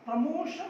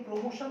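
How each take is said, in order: First: प्रमोशन with a short first vowel, "pra-mo-shan"; correct प्रमोशन. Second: प्रमोशन with a full o first, "pro-mo-shan"; mispronounced प्रमोशन. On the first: Teacher giving learners the right form, प्रमोशन as "pruh-mo-shan". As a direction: reduce the start of प्रमोशन to "pruh". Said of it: "प्रमोशन होता है". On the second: Teacher rejecting the common form, प्रमोशन as "pro-mo-shan". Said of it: "ये प्रमोशन नहीं होता". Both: Shown as a demonstration.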